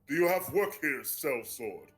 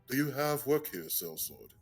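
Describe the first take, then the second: First: It is said in a normal-pitched professional voice. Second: It is said in a deeper, carefully enunciated voice.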